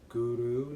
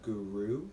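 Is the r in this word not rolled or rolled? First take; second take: rolled; not rolled. First: The r sound is rolled with the tongue. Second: The r sound is not rolled at all. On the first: The speaker calls it right. "try to roll the tongue" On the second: The speaker calls it wrong. "not Guru"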